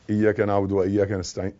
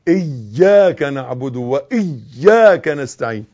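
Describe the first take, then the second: First: إياك with a light single y, low and soft; missing shadda. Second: Slow إياك with a strongly held double y; emphatic shadda. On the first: Teacher showing what not to say, low soft light-y إياك. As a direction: skim over the y in إياك, no doubling. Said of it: "ما تقولش". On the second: Teacher correcting the reader, slow إياك with stressed doubled y. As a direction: lean long on the y of إياك and وإياك. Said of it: "لا،". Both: Shown as a demonstration.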